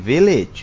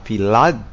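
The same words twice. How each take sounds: First: The second vowel is said like 'i'. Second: The second vowel is said like 'a'. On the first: The speaker calls it right. "di mana A dibaca dengan I" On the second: The speaker calls it wrong. "itu tidak dibaca village"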